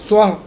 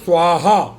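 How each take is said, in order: First: The word ends with only a short breathy 'h'. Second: The word ends with a full extra 'ha' syllable. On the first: It is a word used for one's own uplift. The speaker calls it right. "यानी स्वाह" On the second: Everything is burned to ashes. The speaker calls it wrong. "उसको क्या बोलते हैं लोग?"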